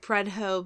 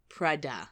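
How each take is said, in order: First: The word ends with an 'oh' sound. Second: The word ends with an 'ah' sound. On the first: The speaker calls it wrong. "and I said Prudhoe" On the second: The speaker calls it right. "but it's actually"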